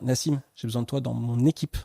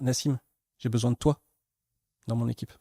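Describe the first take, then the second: First: The emphasis falls on "équipe". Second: The emphasis falls on "toi". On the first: The person should act as part of the team. "tu as un peu tendance à faire ta life dans l'équipe" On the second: It is this particular person who is needed. "c'est vraiment de toi dont j'ai besoin"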